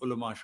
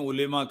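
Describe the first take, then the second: First: The vowel after the l is 'a'. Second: The vowel after the l is 'e'. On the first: The speaker calls it right. "उलमा शब्द है" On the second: The speaker calls it wrong. "लोग इसको गलत बोलते हैं"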